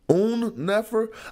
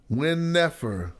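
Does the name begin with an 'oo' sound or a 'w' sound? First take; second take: oo sound; w sound. First: The name begins with an 'oo' vowel sound. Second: The name begins with a 'w' consonant sound. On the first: The speaker calls it right. "It's a placeholder for the oo sound" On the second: The speaker calls it wrong. "I don't say win"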